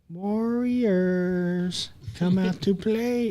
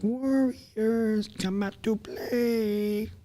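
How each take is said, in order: First: It is said in a plain, normal voice. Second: It is said in a weird put-on movie voice.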